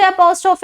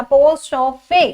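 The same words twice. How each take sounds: First: Said in the usual way. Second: Apostrophe drawn out slowly, ending in a clear "fee"; final E sounded. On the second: Shown as a demonstration. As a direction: stretch apostrophe and voice its last E. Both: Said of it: "last वाले ई को हमने pronounce कर दिया".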